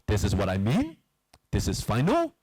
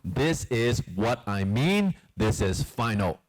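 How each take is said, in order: First: The voice rises at the end. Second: The voice falls at the end. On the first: The statement is not really final. The speaker calls it wrong. "it is not" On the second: The statement is final and certain. The speaker calls it right. "when it finishes down"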